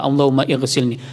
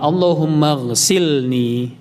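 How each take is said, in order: First: An 'i' vowel is sounded before ghsilni. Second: Allahumma runs straight into ghsilni with no added vowel. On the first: The speaker calls it wrong. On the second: The speaker calls it right. "langsung dia wasal"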